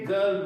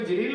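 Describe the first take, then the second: First: The word begins with a hard g sound. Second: The word begins with a j sound. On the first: The speaker calls it right. "लेकिन ये गर्ल बोला जाएगा" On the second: The speaker calls it wrong. "आई आ रहा है तो इसको जरील होना चाहिए"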